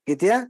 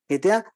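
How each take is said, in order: The two takes are said the same way.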